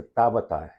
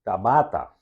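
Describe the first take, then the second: First: Tabata, front-stressed, falling away after TA; stress on first syllable. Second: Tabata with the weight moved onto BA; stress on middle syllable. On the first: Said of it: "tu rende ta bisa". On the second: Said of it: "ninguém não ta bisa". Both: Shown as a demonstration.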